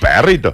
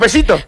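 First: The rr is a strong trill, Córdoba style. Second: The rr sounds hissing, like the La Rioja accent.

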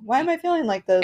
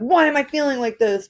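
First: It sounds gently curious and interested. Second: It sounds harsh and self-critical.

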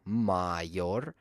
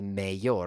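First: The first vowel sounds like 'ah'. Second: The first vowel sounds like 'ay'. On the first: The speaker calls it right. "which should be pronounced like a" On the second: The speaker calls it wrong. "They want to pronounce it like an A"

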